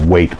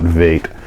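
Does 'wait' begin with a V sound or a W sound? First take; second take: W sound; V sound. First: The word begins with an English W sound. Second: The word begins with a German-style V sound. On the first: "He didn't pronounce the W's as V's" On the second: "not wait"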